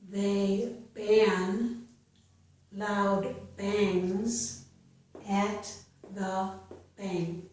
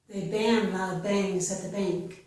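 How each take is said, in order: First: The sentence is spoken slowly. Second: The sentence is spoken faster. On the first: "I will read each sentence slowly" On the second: "then I will read it a little bit faster"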